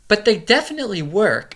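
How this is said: It is said in an imitated voice. It imitates the reviewer. "let me do her voice"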